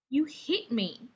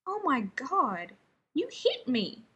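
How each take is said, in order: First: Slow, pressing each word; slow, insistent repeat. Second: Slow, stunned disbelief; slow amazed gasp at being struck. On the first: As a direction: keep hammering the point home. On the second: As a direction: drag it out, amazed he was hit. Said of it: "sounding amazed". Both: Acted.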